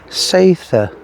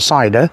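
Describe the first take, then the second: First: It sounds like say-tha, with a soft th. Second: It sounds like the English word cider. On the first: The speaker calls it right. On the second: The speaker calls it wrong. "Not cider, as most people pronounce it"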